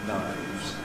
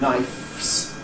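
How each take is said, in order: First: The final fricative is voiced, a v sound. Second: The final fricative is voiceless, an f sound. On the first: This is the irregular plural form actually used. The speaker calls it right. "switching from voiceless to voiced" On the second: This is the regular plural form. The speaker calls it wrong. "instead of the expected knifes"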